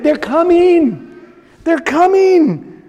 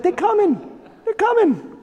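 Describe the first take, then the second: First: Drawn-out slow mock urgency; slow, lightly voiced warning; slow urgent warning. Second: Higher, softer urgent hush; soft, higher, hushed mock urgency; hushed urgent warning. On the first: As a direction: stretch each word, lightly acted fugitive. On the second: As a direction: warn them quietly so no one hears. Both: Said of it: "he's like".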